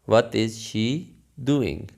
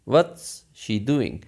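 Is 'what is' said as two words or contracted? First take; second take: two words; contracted. First: What and is are said as separate words. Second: What and is are joined into one syllable.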